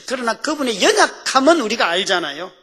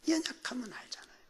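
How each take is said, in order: First: Higher, louder appeal to the congregation; emphatic preaching. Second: Whispered aside to the congregation; hushed repeat. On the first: Preacher to congregation about the Lord's weakness, emphatic. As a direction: press the point home with raised pitch. Same point loudly, then whispered. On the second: Preacher repeating the point to congregation, whispered. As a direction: drop to a quick, confiding whisper. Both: Real, not acted.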